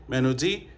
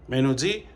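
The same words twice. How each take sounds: Both takes have the same delivery.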